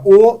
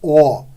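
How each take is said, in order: First: The vowel is said with a closed mouth. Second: The vowel is said with an open mouth. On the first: "com a pronúncia fechada" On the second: "para a pronúncia aberta"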